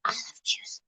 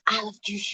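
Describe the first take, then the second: First: Breathy whisper, almost no voice. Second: Said in the usual way. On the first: Real, not acted. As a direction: whisper it to yourself. Whispered then repeated aloud.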